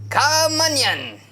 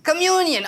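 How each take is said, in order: First: It sounds like the two words come and onion. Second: It sounds like the single word communion. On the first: The speaker calls it wrong. "did I not say the word correctly?" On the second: The speaker calls it right. "Oh, communion"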